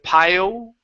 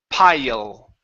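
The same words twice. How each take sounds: First: The word ends with rounded lips, like oo. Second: The word ends with a clear L, lips apart. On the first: The speaker calls it wrong. "you're bringing your lips at the end, pronouncing an oo" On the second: The speaker calls it right. "That's an L sound"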